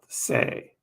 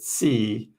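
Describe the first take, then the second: First: The name is said like 'say'. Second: The name is said like 'see'. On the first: This is how the speaker says it. "I call it Sei" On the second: This is how some other people say it. "Some people pronounce it C"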